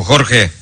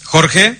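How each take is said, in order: First: Said in the usual way. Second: "Jorge" lifted into a rising question; questioning call. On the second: Real, not acted. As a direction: check if Jorge is on the line, rising at the end. No reply, checks colleague is there.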